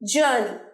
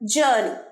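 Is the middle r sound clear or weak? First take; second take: weak; weak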